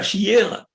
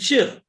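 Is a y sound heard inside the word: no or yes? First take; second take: yes; no. First: A y sound is heard inside the word. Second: No y sound is heard inside the word. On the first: The speaker calls it wrong. "Vous ne dites pas shir" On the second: The speaker calls it right. "vous dites shir, comme s'il n'y avait pas de yud"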